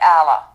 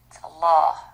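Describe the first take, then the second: First: The l sound is light and thin. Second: The l sound is heavy and thick. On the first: The speaker calls it wrong. "It's not, by the way" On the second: The speaker calls it right. "Thick lam"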